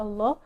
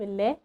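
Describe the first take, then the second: First: The L sound is heavy and dark. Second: The L sound is light and thin. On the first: "فكلمة الله اللام فيها مفخمة" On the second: "كلمة الله اللام فيها مرققة"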